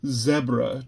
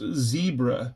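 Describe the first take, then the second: First: The word is said in the British way. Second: The word is said in the typical, non-British way. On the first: "The Brits had to go and pronounce it zebra to be different" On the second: "It was typically pronounced zebra"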